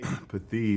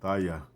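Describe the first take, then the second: First: The word is two syllables ending in 'ee'. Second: The word is three syllables ending in 'ah'. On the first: This is how others pronounce it. The speaker calls it wrong. "is how they how they pronounce it" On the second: This is how the speaker says it really is. The speaker calls it right. "but it's pathaya"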